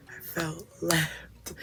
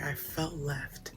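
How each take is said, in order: First: Laughing. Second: Said in the usual way. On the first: Real, not acted. Repeats the line, laughing through it.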